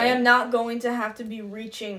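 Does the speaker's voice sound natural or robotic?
robotic. The voice sounds stiff, formal and robotic.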